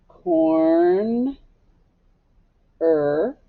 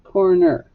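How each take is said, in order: First: "Corn, er" in two drawn-out parts; syllable by syllable. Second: Said in the usual way. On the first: Shown as a demonstration. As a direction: hold Corn, pause, then say er alone. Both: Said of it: "Now let's scoop it".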